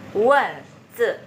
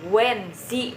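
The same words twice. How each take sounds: First: The final vowel is a muffled 'uh' sound. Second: The final vowel is a clear 'ee' sound. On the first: The speaker calls it right. "Jadi i-nya dibaca e gitu ya" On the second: The speaker calls it wrong. "bukan ini bacanya bukan wenzi"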